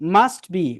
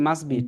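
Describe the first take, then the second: First: The t at the end of 'must' is pronounced. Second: The t at the end of 'must' is dropped.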